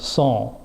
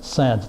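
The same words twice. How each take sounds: First: It is said with a French pronunciation. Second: It is said with an American English pronunciation. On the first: "It's actually pronounced sans" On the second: "in the United States we pronounce it sans"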